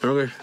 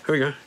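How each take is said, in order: Both takes have the same delivery.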